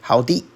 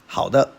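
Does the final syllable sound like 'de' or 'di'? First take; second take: di; de. First: The final syllable is pronounced di. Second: The final syllable is pronounced de.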